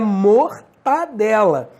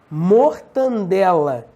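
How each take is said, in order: First: No extra n sound follows the second syllable. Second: An extra n sound follows the second syllable. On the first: The speaker calls it right. "Não, é mortadela" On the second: The speaker calls it wrong. "É a mesma coisa"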